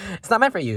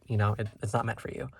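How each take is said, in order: First: Higher, louder snooty brush-off; mock mean girl. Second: Said in the usual way. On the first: Reader teases viewers like a mean girl, snooty and higher. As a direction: play the snotty queen bee.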